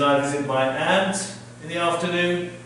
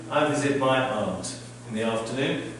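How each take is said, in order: First: It is said with an American accent. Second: It is said with a British accent.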